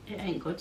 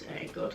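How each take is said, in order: First: Said in the usual way. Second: It ain't good dropped to an unvoiced whisper; hushed knowing repeat; quiet repeat. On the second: Shown as a demonstration. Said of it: "it ain't good, sis".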